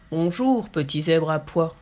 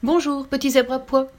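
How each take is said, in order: First: Lower, ponderous greeting; a hint of a heavy elephant. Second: Lively tiger calling out; bouncing tiger. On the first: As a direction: lumber through the hello like an elephant. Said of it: "saluait pesamment l'éléphant". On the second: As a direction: bounce the hello like a leaping tiger. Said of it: "lançait le tigre en bondissant". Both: A narrator's reading.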